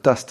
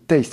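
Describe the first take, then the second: First: The word is pronounced the French way. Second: The word is pronounced the English way. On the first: "c'est bien de le dire à la française" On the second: "souvent les gens me disent Taste"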